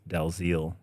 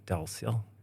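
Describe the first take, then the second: First: The name is pronounced in a harsher way. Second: The name is pronounced in a softer way. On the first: This is how English speakers mispronounce the name. The speaker calls it wrong. "If it's mispronounced in English, it's it's horrible" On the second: This is how Norwegian speakers say the name. The speaker calls it right. "Norwegians tend to say Dalziel, which is softer"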